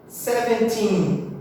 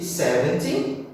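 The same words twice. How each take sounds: First: "Seventeen" slow, with a long final syllable; seven-TEEN, end-stressed. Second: "seventy" weighted on its first syllable; SEV-enty, front-stressed. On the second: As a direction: lean on the start of "seventy", short "ty". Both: Shown as a demonstration. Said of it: "sempre lembrando de diferenciar qual que é a stressed".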